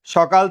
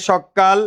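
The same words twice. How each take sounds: First: Said in the usual way. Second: সকাল with the k doubled and held, "shok-kal"; forceful doubled consonant. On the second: Shown as a demonstration. Teacher recapping the rule, সকাল said forcefully with doubled k. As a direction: lean hard into a long k in the middle of সকাল. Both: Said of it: "জোর দিয়ে উচ্চারণ করার জন্য".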